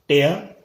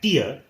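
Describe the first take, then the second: First: It has the vowel of the verb form. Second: It has the vowel of the noun form. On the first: It means to rip something apart. "tear as a verb" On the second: It means a drop from the eye. "tear as a noun"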